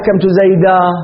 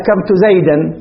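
First: The last word ends without an n sound. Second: The last word ends with an n sound. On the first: The speaker calls it right. "ما يقول أكرمت زيدا ويقف" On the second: The speaker calls it wrong. "زيدا ينونه، وقف لكن أخطأ"

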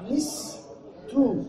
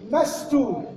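First: The first vowel is i, with no middle vowel. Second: The first vowel is a, with no middle vowel. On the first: "النطق الثاني مستو بكسر الميم" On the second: "النطق الأول مستو بفتح الميم وسكون السين"

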